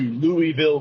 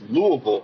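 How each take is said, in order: First: It is said the way outsiders say it. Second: It is said the way locals say it. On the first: The speaker calls it wrong. "you don't go to Louisville" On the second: The speaker calls it right. "It's Louisville"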